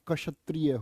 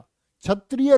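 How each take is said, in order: First: The word begins with a 'ksh' sound. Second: The word begins with a 'chh' sound. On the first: The speaker calls it right. "होता है" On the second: The speaker calls it wrong. "नहीं होता"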